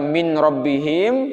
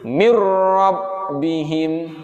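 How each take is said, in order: First: The n is pronounced separately before the r. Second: The n merges fully into the r, no hum. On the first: "yang awalnya cara bacanya adalah min rabbihim" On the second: "dimasukkan bunyi nun matinya kepada ra ... tidak disertai dengan dengung"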